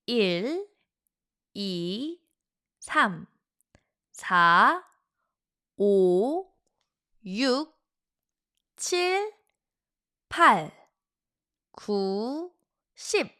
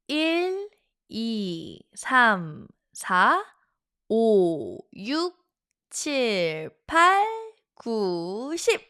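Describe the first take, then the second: First: The numbers are counted at a slower pace. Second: The numbers are counted at a faster pace.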